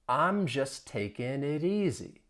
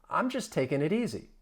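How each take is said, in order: First: The sentence is said at a slow pace. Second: The sentence is said at a fast pace. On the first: "I'll say it slowly" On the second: "Let's speed it up"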